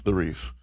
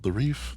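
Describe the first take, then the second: First: The Reef. said as a sure answer, falling at the end; confirming it, with Reef dropping down; settled statement. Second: The Reef? asked as an unsure question, rising at the end; checking the name, with Reef going up; questioning rise. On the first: Confirms the name. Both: Real, not acted.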